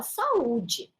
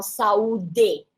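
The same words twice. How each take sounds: First: Saúde with the D as dj, ending saudji; dj sound saúde. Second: Saúde with a plain hard D, like sa-U-de, no dj sound. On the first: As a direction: soften the D of saúde into dj, sa-U-dji. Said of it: "A gente fala saúde". (saúde com D como dj, saudji) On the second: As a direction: say saúde with a clean D before the final e. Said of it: "porque nós não falamos". (saúde com D duro, sem som de dj) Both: Shown as a demonstration.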